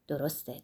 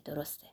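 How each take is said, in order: First: Said in the usual way. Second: A much softer repeat of درسته, fading out; the seated priest quietly agreeing again; quiet echo. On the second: A narrator's reading. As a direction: murmur درسته again to yourself. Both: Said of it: "به تایید گفت".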